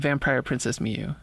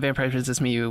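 First: It is said slowly and deliberately. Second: It is said at a normal, quick pace.

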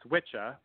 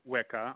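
First: The middle consonant is a ch sound. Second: The middle consonant is a hard K sound. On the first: This is the reconstructed Old English way of saying it. "two C's would make the ch sound and not the hard K" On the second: This is the common modern way of saying it. "I don't pronounce it that way anymore"

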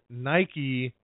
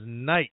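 First: The final E is pronounced as a vowel. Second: The final E is silent. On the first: The speaker calls it right. "pronounce the brand Nike" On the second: The speaker calls it wrong. "you go silent on the E"

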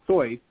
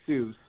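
First: The name is given its German pronunciation. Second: The name is given its usual English pronunciation. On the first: This is the original family pronunciation. The speaker calls it right. "if you want to be a purist, he's of German extraction. It's actually Seuss" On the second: This is how everyone actually says it. The speaker calls it wrong. "not Seuss, but no one ever pronounced it that way"

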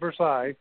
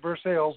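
First: It is said the French-style way. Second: It is said the local Indiana way. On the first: This is not how people in the town say it. The speaker calls it wrong. "not Versailles" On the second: This is how people in the town say it. The speaker calls it right. "They pronounce it Versailles"

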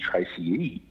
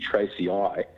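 First: The name ends with an "ee" sound. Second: The name ends with an "eye" sound. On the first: The speaker calls it right. "it should be Tracy E, because you pronounce E-I as an E" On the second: The speaker calls it wrong. "So it should be Tracy I"

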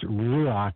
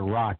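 First: The word does not sound like 'rock'. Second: The word sounds like English 'rock'. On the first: The speaker calls it right. "It's ruach" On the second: The speaker calls it wrong. "some people call it rock"

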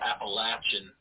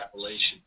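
First: It is pronounced the way local mountain people say it. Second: It is pronounced the way people outside the region say it. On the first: This is the pronunciation used in the region itself. "that's how they pronounce it around where I grew up" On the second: This is the pronunciation used outside the region. "Every time I go outside, I hear"

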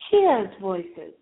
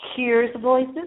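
First: It is said in a British accent. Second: It is said in a plain, non-British accent.

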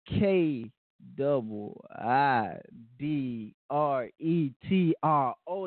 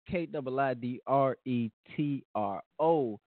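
First: It is said at a slow pace. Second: It is said at a quick pace.

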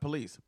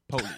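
First: It is said the standard way, stress on second syllable. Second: It is said Southern style, stress on first syllable.

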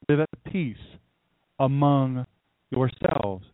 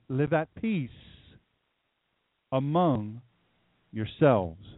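First: It is said at normal speed. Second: It is said slowly.

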